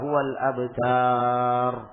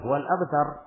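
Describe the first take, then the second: First: The final vowel is drawn out long. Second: The final vowel is kept short. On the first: The speaker calls it wrong. "Dia menyangka karena itu terakhir maka dipanjangkan" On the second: The speaker calls it right. "Padahal seharusnya dipendekkan"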